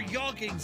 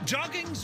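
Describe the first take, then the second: First: The word begins with a soft Y sound. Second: The word begins with a hard J sound.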